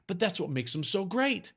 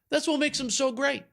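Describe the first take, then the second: First: Said in the usual way. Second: Excited repeat. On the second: Shown as a demonstration.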